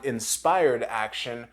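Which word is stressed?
inspired. The stress is on the word inspired.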